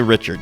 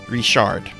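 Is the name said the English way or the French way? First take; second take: English; French. First: The name is said with English pronunciation. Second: The name is said with French pronunciation. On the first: This is how most English speakers say it. "You would say Richard" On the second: This is how the name is said locally in Louisiana. "You know how it's said in Louisiana?"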